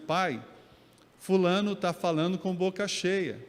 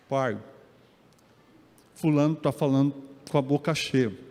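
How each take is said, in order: First: It is spoken in a clear, plain voice. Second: It is spoken muffled, like a full mouth.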